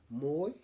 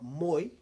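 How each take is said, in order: First: "moi" said as Māori moe, ending in an e sound; correct pronunciation. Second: "moi" with an English oy ending, louder; wrong pronunciation. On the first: Teacher modelling the word for sleep, correct pronunciation of "moi". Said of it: "not moi". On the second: Teacher warning learners what not to say, mispronounced "moi". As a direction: mispronounce moe as "moi", rhyming with boy. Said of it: "It's different". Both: Shown as a demonstration.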